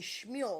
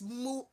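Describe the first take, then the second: First: The word begins with an "sh" sound. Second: The word begins with a plain "s" sound. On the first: "It should be Shmule" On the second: "It's Smule"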